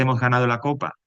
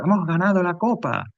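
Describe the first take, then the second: First: Said in the usual way. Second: Much higher, cheering delivery of a win; euphoric exclamation. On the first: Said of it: "y ese". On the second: Shown as a demonstration. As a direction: sound like you just won the cup. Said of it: "Si yo digo".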